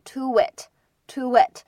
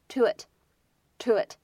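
First: A strong, exaggerated w-glide joins the two words. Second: A light, barely shaped w-glide joins the two words. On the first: The speaker calls it wrong. "不要读得过于夸张，你不要把这个连读读成to it，这样就有点过了" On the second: The speaker calls it right. "它只是轻轻带一下这样一个口型to it"

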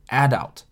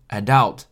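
First: The stress is on the first syllable. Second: The stress is on the second syllable. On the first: "有些人会把重音放在前面，就是adult" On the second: "有些人呢会念成adult"

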